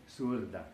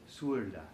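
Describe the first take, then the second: No difference in how they are said.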